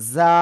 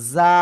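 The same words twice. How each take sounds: First: The buzzing consonant is said soft and light. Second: The buzzing consonant is said soft and light.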